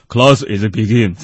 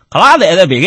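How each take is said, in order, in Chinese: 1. 这是用英式英语口音说的。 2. 这是用浓重的北京腔说的。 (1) "英式英语是" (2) "北京英语怎么说呢"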